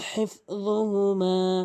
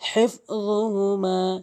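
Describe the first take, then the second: Both takes have the same delivery.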